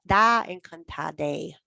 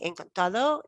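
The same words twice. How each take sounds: First: "encantade" drawn out very slowly, ending in a clear e; teacher contrasting "encantade" slowly with "encantado". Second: Said in the usual way. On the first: Shown as a demonstration. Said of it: "you're gonna say".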